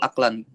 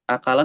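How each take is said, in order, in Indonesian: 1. Kata ini terdiri dari dua suku kata, tanpa vokal setelah k. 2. Kata ini terdiri dari tiga suku kata, dengan vokal setelah k. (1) "Aklan, oke" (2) "akalan atau aklan eh, dibacanya?"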